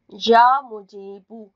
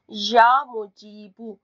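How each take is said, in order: Both takes have the same delivery.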